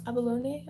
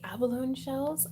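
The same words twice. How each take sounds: First: Tentative alternative "Abalone", last syllable rhyming with day; unsure pronunciation. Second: Said in the usual way. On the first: Shown as a demonstration. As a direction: try "Abalone" with a questioning "nay" ending. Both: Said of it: "I don't know how to pronounce that".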